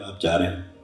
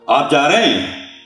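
First: It is said as a plain neutral statement. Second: It is said in a bossy, commanding tone.

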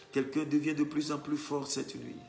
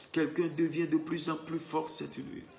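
The two takes are said the same way.

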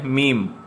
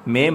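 First: The vowel is a long 'ee' sound. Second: The vowel is an 'eh' sound. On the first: The speaker calls it right. "इसको हमने पढ़ना है मीम" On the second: The speaker calls it wrong. "मेम नहीं कहना"

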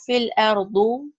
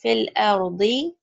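First: The last word ends in a u vowel. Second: The last word ends in an i vowel. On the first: The speaker calls it wrong. "You don't have fil ardu" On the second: The speaker calls it right. "It's fil ardi"

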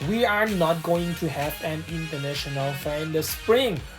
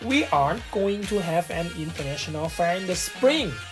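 First: 'Are not' is said as two full words. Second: 'Are not' is contracted into one syllable. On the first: "ประโยคบน" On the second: "ประโยคข้างล่างครับ ... สามารถย่อได้ข้างล่างคือ aren't"

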